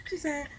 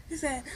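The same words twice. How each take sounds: The two takes are said the same way.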